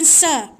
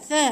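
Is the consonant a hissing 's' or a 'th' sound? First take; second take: hissing; th. First: The consonant is a hissing 's' sound. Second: The consonant is a soft 'th' sound. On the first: The speaker calls it wrong. "bukan sa, jangan bunyi desir" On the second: The speaker calls it right. "hujung lidah di antara dua gigi"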